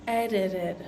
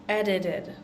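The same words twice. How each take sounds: Both takes have the same delivery.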